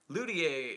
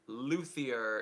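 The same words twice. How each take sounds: First: The word is pronounced in a French-like way. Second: The word is pronounced in an American way. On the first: "is close to French pronunciation" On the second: "is how most say it in America"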